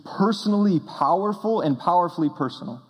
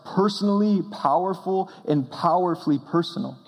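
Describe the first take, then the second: No difference in how they are said.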